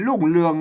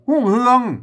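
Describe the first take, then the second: First: It starts with an l sound, Central Thai style. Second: It starts with an h sound, Northern Thai style.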